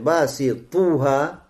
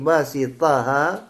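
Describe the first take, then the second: First: The vowel after basit is u. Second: The vowel after basit is a. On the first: The word is in the nominative case. "с даммой, то есть марфур" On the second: The word is in the accusative case. "с фатхой, то есть это что? Мансуб"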